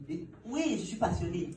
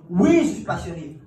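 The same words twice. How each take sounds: First: Said in the usual way. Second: Loud, slow, emphatic yes; keen applicant answering loudly; eager loud answer. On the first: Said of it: "Je réponds oui". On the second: Retold or imitated. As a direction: shout your passion back at him.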